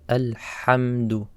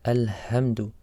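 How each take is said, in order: First: The h sound is a tense, throaty breath. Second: The h sound is a plain, light breath. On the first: The speaker calls it right. "It's a Ha" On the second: The speaker calls it wrong. "A mistake would be to say Alhamdu, like Ha"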